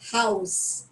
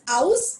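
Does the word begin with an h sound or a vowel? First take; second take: h sound; vowel. First: The word begins with a sounded h. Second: The word begins with a vowel, h silent. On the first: The speaker calls it right. "it is house" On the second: The speaker calls it wrong. "this is not pronounced as house"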